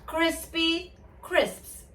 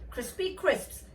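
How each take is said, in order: First: It is said at a normal, steady pace. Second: It is said quickly, at a faster pace. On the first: "one more time" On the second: "Getting faster"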